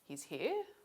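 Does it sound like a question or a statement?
question. It is said with a question melody. It asks a question.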